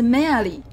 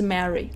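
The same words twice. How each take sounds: First: The name is said as Japanese katakana syllables. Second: The name is said in English pronunciation. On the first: The speaker calls it wrong. "他们写成日文的片假名是Mary" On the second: The speaker calls it right. "Mary 的英文是Mary"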